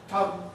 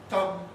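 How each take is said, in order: No difference in how they are said.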